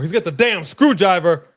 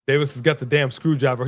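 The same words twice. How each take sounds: First: Louder, stress on damn; emphatic repeat. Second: Said in the usual way. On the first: Real, not acted. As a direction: hammer the repeat home. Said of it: "louder repeat". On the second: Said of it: "repeats it louder".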